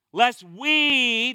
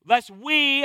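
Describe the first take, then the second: First: "Lest we" punched loud; "Lest we," leaned on and held; stress on lest we. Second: "Lest we," stressed, raised and emphatic. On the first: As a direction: hit "we" hard, calling it out. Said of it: "that's circle in my Bible". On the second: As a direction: drive "we" home to include yourself. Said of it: "I'm a part of this number". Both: Shown as a demonstration.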